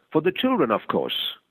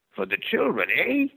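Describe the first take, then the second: First: Said in the usual way. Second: Put-on much higher, the old man echoing with a question; old man's voice. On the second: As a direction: turn it back on him as the old stranger.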